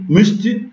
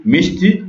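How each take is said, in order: First: Mishti with rounded French u in both syllables; vowel-harmony variant. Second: Mishti with ee in both syllables; vowel-harmony variant. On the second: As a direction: say mishti with two clear i vowels. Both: Shown as a demonstration. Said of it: "ou bien mouchtou".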